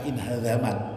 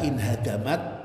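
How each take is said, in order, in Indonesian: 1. Konsonan tengahnya adalah bunyi dh/z. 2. Konsonan tengahnya adalah bunyi d biasa. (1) "bisa dibaca inhazamat" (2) "dengan dal"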